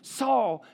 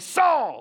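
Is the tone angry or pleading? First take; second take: pleading; angry. First: It is said in a pleading, concerned tone. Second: It is said in an angry tone.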